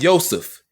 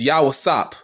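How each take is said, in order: First: The name ends with an f sound. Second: The name ends with a p sound. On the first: The speaker calls it wrong. "It's not Yosef" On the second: The speaker calls it right. "It's Yawasop"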